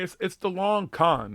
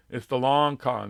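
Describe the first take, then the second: First: Long con slowed and pitched up, leaning on long; slow, emphatic "long con" with the word long raised; stressed long con. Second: Said in the usual way. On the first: Shown as a demonstration. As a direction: drag out "long con" with weight on long. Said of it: "repeats phrase for emphasis". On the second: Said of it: "repeats phrase plainly".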